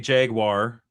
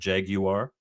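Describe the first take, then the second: First: It is said the American way. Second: It is said the British way.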